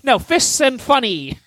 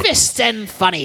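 First: Higher, slower trailer-announcer reading of the title; correcting the name in a hammed-up promo voice; mock announcer title. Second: Laughing repeat. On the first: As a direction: announce Fists and Funny like a movie trailer. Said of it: "gimmick for this episode". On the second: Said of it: "There you go". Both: Shown as a demonstration.

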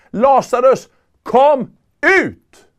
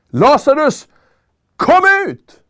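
First: Commanding call. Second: "Lazarus, kom ut!" shouted much higher, ringing out; commanding shout. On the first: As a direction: command the dead man out of the tomb. (befallande rop med hög röst) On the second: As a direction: call him out of the grave with full authority. (högt befallande rop, mycket ljusare) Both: Acted. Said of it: "nu säger han det med hög röst".

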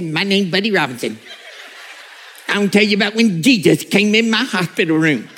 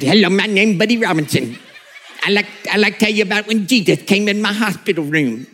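First: Lightly voiced old country preacher; a hint of the Buddy Robinson tape voice; mild high whiny old man. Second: Put-on sped-up squeaky old preacher on tape; Elmer Fudd voice. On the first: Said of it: "high-pitched and whiny and a little bit like Elmer Fudd". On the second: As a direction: play the old man like a tape on the wrong speed. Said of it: "a voice that sounded like Elmer Fudd".

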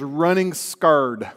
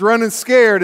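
First: "scared" said like "scarred"; folksy pronunciation. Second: Said in the usual way. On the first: Shown as a demonstration. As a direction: say "scared" with an AR vowel, "skard". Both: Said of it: "You can say scared".

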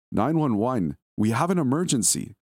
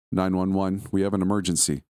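First: Shaky female caller, repeated. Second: A touch of a shaky woman on the phone, pitch a little raised; lightly voiced frightened woman reciting the emergency line; shaky female caller. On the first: Acted. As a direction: raise the pitch and press harder as she repeats it. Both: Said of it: "said a shaky female voice".

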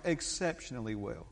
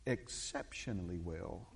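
First: Said in the usual way. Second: Low, soft and drawn out; Hiawatha Sheffield. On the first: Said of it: "I said that more than once". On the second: Retold or imitated. Imitating our dear brother's favorite response, low and slow. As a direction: savor each syllable slowly, deep and hushed. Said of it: "is how he would say it".

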